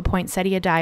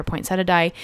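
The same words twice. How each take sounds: First: "poinsettia" ending in "-ee-uh"; "poinsettia" with an "ee" before the final "a"; four-syllable pronunciation. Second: "poinsettia" ending in plain "-setta"; "poinsettia" without the "ee" before the final "a"; three-syllable pronunciation. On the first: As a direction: say "poinsettia" as poin-SET-ee-uh. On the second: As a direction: say "poinsettia" as poin-SET-uh. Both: Shown as a demonstration. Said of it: "depending on how you wanna pronounce it".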